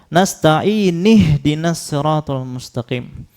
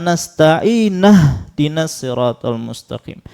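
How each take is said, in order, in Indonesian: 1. Nasta'in berakhir dengan vokal i. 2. Nasta'in berakhir dengan vokal a.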